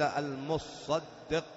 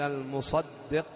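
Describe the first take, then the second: First: The ṣād sound is doubled and held longer. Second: The ṣād sound is single and short. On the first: It refers to the owner of the wealth. "بالتجديد الصاد" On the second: It refers to the collector sent to take the alms. "بتخفيف الصاد"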